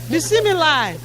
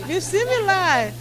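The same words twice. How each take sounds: The two takes are said the same way.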